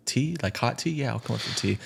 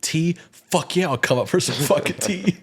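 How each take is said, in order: First: Higher-voiced, restrained answer; polite out-loud reply. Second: High, hyped-up mock inner voice; gung-ho inner narration. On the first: Answering the invite to come up for tea, mildly polite. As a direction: politely accept the invitation, lightly acted. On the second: His inner narration answering the tea invite, hammed-up excitement. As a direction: accept with exaggerated eagerness. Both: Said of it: "And then goes to the narration".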